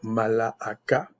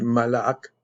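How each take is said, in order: First: The word ends with a final a vowel. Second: The word ends on a k sound. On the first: Every written letter is pronounced. "parce que je vais prononcer toutes les lettres" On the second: Someone else says this is the correct form. "mais le ak, ça fait comme K"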